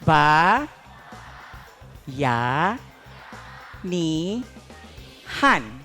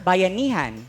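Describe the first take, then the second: First: It is said slowly, syllable by syllable. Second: It is said quickly as one smooth word. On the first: "let's say it with me" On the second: "Let's say it faster"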